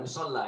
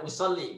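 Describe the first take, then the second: First: The word ends with an 'ah' vowel. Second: The word ends with an 'ee' vowel. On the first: The speaker calls it wrong. "bukan usolla ini ya" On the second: The speaker calls it right. "Jadi membacanya usolli"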